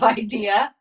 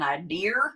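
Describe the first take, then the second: First: It is said in the speaker's plain accent. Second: It is said in a Maine accent. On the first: This is how the speaker says it. "instead of" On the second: This is how people in Maine say it. "They say"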